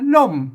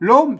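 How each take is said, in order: First: It is said with the tho tone. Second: It is said with the tri tone. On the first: "ลมเสียงโท" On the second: "ลมเสียงตี"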